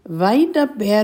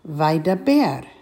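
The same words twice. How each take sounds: First: The word is said quickly, run into the next. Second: The word is said slowly and separately. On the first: "And more quickly" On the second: "again slowly"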